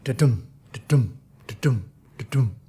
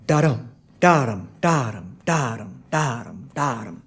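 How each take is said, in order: First: "da-dum" like a heartbeat, light DA and stressed DUM; low, pulsing "da-dum" pairs with gaps between; heartbeat rhythm. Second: "da-dum" with DA stressed and DUM light; low, steady "DA-dum" repeats, falling off each time; trochaic beat. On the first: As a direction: beat out "da-dum" iambs, second syllable heavy. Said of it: "similar to the heartbeat". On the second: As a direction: hit "da" hard, let "dum" drop. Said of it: "which is heavy light". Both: Shown as a demonstration.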